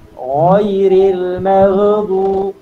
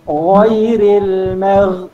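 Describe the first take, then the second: First: The ghain sound is doubled or held extra. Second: The ghain sound is said only once. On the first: The speaker calls it wrong. "cara yang salah" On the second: The speaker calls it right. "Dia kena baca dengan satu ghain sahaja dekat sini"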